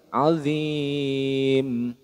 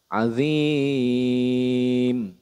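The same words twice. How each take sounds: First: The long vowel is held for two counts. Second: The long vowel is held for three counts. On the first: "Kalau dua alif" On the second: "Kalau tiga alif"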